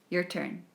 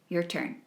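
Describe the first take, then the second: Both takes have the same delivery.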